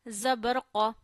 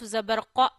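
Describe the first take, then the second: First: The final vowel is short and smoothly ended. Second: The final vowel is cut off suddenly. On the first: The speaker calls it right. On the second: The speaker calls it wrong.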